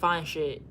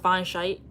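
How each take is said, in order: First: The last word has a short vowel, like 'bit'. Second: The last word has a long vowel, like 'bite'. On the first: The speaker calls it right. "I thought it was still like fine shit" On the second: The speaker calls it wrong. "you pronounce it fine shite?"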